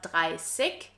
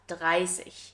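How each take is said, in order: First: The ending is said with a hard stop sound. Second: The ending is said with a soft ich sound. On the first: The speaker calls it wrong. "it's not" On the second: The speaker calls it right. "in high standard German, ... but"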